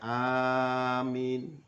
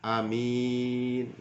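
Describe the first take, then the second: First: The first vowel is long, the second short. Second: The first vowel is short, the second long. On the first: "A-nya panjang, min-nya pendek" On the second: "alifnya pendek, mim min mimnya panjang"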